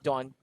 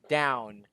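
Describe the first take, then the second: First: The vowel is a plain 'aw' sound. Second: The vowel is a gliding 'ow' sound. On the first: The speaker calls it wrong. "not not dawn" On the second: The speaker calls it right.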